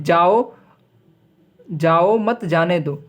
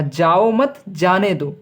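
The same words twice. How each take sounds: First: "जाओ" set apart by a long break, slow delivery; pause after जाओ. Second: Slow "जाओ मत", break, then "जाने दो"; group "जाओ मत" and set "जाने दो" apart; pause after मत. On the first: Teacher repeating the contrast for students, pause after "जाओ". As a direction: halt after the first "जाओ", then say the phrase slowly. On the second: Teacher contrasting comma positions, pause after "मत". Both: Shown as a demonstration. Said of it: "कहने का अर्थ अलग-अलग है".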